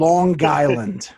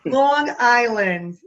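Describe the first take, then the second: First: "Long Island" slow, as "Lawn Guyland"; slow one-word "Long Island", G linking across; G carried over. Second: "Long Island" drawn out in a Jersey accent; loud, slow Jersey "Long Island". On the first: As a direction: draw out "Long Island" with a hard G into Island. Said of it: "the G carries over". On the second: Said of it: "And we say, like". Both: Shown as a demonstration.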